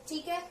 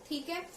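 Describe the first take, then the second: No difference in how they are said.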